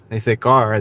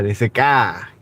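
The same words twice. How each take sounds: First: Said in the usual way. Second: "car" said as "kæ", no R and a flat front vowel; mock their R-less "car"; car with the R dropped. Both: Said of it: "they don't know how to say it".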